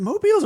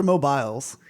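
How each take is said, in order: First: "mobiles" with a long ee, mo-BEELS. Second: "mobiles" with a long eye sound, mo-BYLES; mobiles as "mo-biles". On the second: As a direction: say "mobiles" ending like "miles". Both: Shown as a demonstration. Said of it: "is it mobiles or mobiles".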